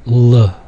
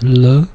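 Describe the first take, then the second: First: A dark, heavy L sound. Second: A light, clear L sound. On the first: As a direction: say L as a dark L, not light. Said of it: "distinguished from the dark L". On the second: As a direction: say L as a light L, not dark. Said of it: "it's the light L". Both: Shown as a demonstration.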